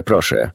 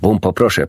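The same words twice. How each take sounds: First: Softer repeat plea. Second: A touch firmer first plea, stress on Bumpo; pleading interruption. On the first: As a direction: repeat proszę quietly, letting it fall. (ciche, opadające „proszę”) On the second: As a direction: cut him off with a gentle plea. (lekko stanowcza prośba, akcent na „Bumpo”) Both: A narrator's reading. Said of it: "przerwał mu doktor Dolittle".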